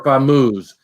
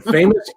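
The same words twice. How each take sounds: First: "Famoose" said as fah-MOOZ; alternative pronunciation. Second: Said in the usual way. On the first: Shown as a demonstration. Host settling who got the name right, alternative pronunciation. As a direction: say "Famoose" with a long oo in the last syllable. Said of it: "or Phil got it right". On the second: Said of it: "Is it Ann's got it right".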